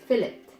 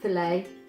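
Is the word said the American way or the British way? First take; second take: British; American. First: It is said the British way. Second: It is said the American way.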